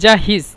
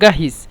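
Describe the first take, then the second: First: The word begins with a soft j sound. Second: The word begins with a hard g sound. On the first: This is the standard form. "এখানে জাহিজ" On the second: This is the Egyptian dialect form. "মিশরীয় জিমকে গয়ন বলে এই জন্য গাহিজ"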